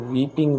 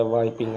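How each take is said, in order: First: ویپنگ said with a long "ee" sound, like weeping; weeping, not wiping. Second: وائپنگ said with an "ai" diphthong, like wipe; wiping with "ai". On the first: Teacher shows students the wrong word, weeping, with a long ee. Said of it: "ویپنگ الگ ہوتا ہے، وائپنگ الگ ہوتا ہے". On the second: Teacher shows students the right word, wiping, with an ai sound. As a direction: open وائپنگ into "wai-ping". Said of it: "آئی کی اے آواز نکلتی ہے". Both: Shown as a demonstration.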